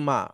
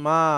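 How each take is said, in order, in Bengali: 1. শব্দটি সহজভাবে, ছোট স্বরধ্বনি দিয়ে বলা হয়। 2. শব্দটি আবেগ নিয়ে, দীর্ঘ স্বরধ্বনি দিয়ে বলা হয়। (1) "সাধারণভাবে আমরা যদি বলি মা" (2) "একটু আবেগ ভালোবাসা দিয়ে বলি তখন মা, একটু টান দিয়ে বলি"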